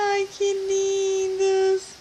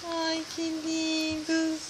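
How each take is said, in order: First: Cooing. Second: Soft cooing. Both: Real, not acted. Mother cooing over babies.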